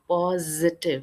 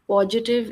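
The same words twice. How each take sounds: First: The middle consonant is a buzzing 'z' sound. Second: The middle consonant is a 'j' sound. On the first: The speaker calls it right. "मधुमक्खी की आवाज ... वाला ज यहाँ पे आएगा।" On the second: The speaker calls it wrong. "पॉजिटिव is wrong."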